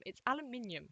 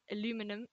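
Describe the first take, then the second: First: "aluminium" the British way, al-yu-MIN-ee-um; British pronunciation. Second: "aluminum" the American way, a-LOO-mi-num; American pronunciation. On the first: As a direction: insist on "aluminium", stress on MIN, higher pitch. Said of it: "it's not aluminum, it's aluminium". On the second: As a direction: say "aluminum" with stress on LOO, no extra i. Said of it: "no, it's not aluminum". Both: Shown as a demonstration.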